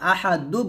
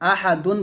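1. শব্দটি n ছাড়া একটি স্বরধ্বনি দিয়ে শেষ হয়। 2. শব্দটি n ধ্বনি দিয়ে শেষ হয়। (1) "আহাদু বলবো" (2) "আহাদুন বলবো না"

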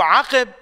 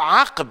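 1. يأتي حرف العلة i بعد صوت q. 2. لا يأتي أي حرف علة بعد صوت q. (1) "بكسر القاف" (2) "بتسكين القاف"

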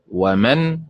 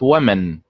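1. النبر على المقطع الأخير. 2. النبر على المقطع الأول. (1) "النبر فيها على حركة الميم، إذن تنطق مثل فعل" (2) "وليست ومن فعل"

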